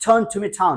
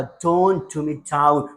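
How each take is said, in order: First: "tone to me down" run together, higher; in a flow. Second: Said in the usual way. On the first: Shown as a demonstration. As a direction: link "tone to me down" into one quick phrase. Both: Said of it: "flow में बोलने की कोशिश".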